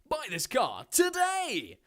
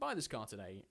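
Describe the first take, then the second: First: It is read in a lively voice. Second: It is read in a flat voice.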